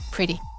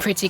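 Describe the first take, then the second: First: The middle consonant is a quick R-like flap. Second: The middle consonant is a clear T sound. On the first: "if I'm speaking quickly, then pretty can just become" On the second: "when it should be like a T sound"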